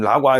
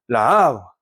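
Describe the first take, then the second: First: The two a sounds merge into one quick syllable. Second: The two a sounds are said separately, both stressed. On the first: "빠르게 발음을" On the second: "아 강세를 두 번 나눠서 줘야"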